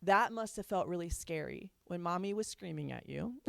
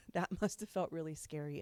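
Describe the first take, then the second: First: Said in the usual way. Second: Softer, tender, with a small laugh; a tender, softer take on the apology to the child; gentle apology. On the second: Shown as a demonstration. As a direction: soothe the child softly. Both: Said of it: "Acknowledge the impact and say".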